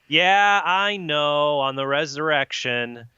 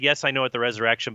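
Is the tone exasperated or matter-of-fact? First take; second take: exasperated; matter-of-fact. First: It is said in an exasperated, weary tone. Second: It is said in a plain, matter-of-fact tone.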